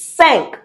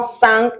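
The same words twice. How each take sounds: First: Cinq with the nasal "un" vowel; French nasal cinq. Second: Cinq with an English "sink" vowel; wrong English-style cinq. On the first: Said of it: "It's cinq because I N is un". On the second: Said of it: "It's not cinq". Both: Shown as a demonstration.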